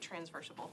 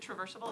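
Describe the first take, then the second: First: It has an extra n sound: trans-versable. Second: It has no n sound: tra-versable. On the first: The speaker calls it wrong. "I keep wanting to say transversable" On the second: The speaker calls it right. "if I can pronounce this correctly"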